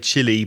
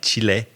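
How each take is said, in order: First: It sounds like the English word chilly. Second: It sounds like Spanish, chee-leh. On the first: This is how most native English speakers say it. "most native speakers would say Chile" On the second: This is closer to the original Spanish pronunciation. "the pronunciation is more like Chile"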